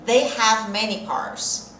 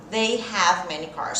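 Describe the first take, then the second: First: Each word laid out slowly for students to copy; patient slow demo pace; slow model answer. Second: Said in the usual way. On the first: Shown as a demonstration. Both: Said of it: "Já treinou a sua fala hoje?".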